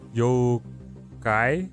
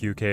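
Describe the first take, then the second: First: It starts with 'yo', with an 'ah' vowel next. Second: It starts with 'you', like the letters U K. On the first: The speaker calls it right. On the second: The speaker calls it wrong.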